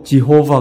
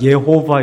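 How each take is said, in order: First: The word begins with a J sound. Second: The word begins with a Y sound.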